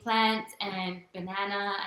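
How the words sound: The vowels sound American, as in the US. This is how she now speaks after living in the US. "here I am saying plant and banana"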